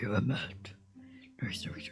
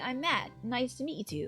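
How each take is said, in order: First: The voice is deep and gravelly. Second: The voice is raised to a higher pitch. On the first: "Batman voice" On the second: "Maybe kind of like a higher"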